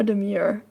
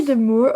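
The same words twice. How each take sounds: First: "demure" as "de-MYOOR", with a y sound; with y glide. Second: "demure" as "de-MOOR", no y sound; without y glide. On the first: Offering co-host the other pronunciation, "demure" as "de-myoor". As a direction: say "demure" to rhyme with "pure". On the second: Asking co-host which pronunciation is right, "demure" as "de-moor". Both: Shown as a demonstration. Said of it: "Do you say demure or demure".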